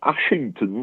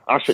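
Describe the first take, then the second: First: The name is said with three full syllables. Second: The name is shortened to two syllables. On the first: This is the posh form outsiders use. The speaker calls it wrong. "That's posh" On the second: This is the form locals actually use. The speaker calls it right. "That we call Ashton"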